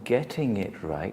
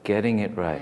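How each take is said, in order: First: The t sounds are clearly pronounced. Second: The t sounds are dropped or softened. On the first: "instead of saying getting it right with T" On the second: "you said getting it right"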